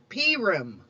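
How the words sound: It is pronounced the Central European Jewish way. "Some Central European communities even call it Purim"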